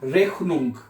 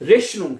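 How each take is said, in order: First: The middle consonant is a harsh throaty kh sound. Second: The middle consonant is a soft hissing sh sound. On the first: This is how Austrians mostly say it. "ऑस्ट्राइश वाले जो हैं, वो ज्यादातर इसको खे की आवाज में प्रोनाउंस करते हैं" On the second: This is how we usually say it. "हम क्या कहते हैं? रेशनुंग"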